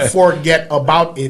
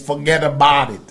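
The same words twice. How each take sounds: First: Each word is said fully and separately. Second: The words run together in one reduced slang form. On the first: The speaker calls it wrong. "It's not" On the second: The speaker calls it right.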